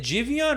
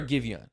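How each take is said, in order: First: Jivion with a soft J sound at the start; soft-G pronunciation. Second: [name] with a hard G at the start; hard-G pronunciation. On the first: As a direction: begin "Jivion" like "jive", not "give". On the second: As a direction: begin "[name]" like "give", not "jive". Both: Shown as a demonstration. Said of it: "never get this guy's name right".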